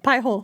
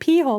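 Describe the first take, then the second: First: The first syllable sounds like 'pie'. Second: The first syllable sounds like 'pee'. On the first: It is read the way English reads it. "if I'm thinking of the English pronunciation" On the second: It is read the way the speaker's native language reads it. "With the language that we come from, it sounds like pee hole"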